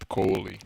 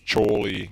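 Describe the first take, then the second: First: The name begins with a k sound. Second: The name begins with a ch sound. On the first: The speaker calls it wrong. "not Kohli" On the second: The speaker calls it right. "It's Choli"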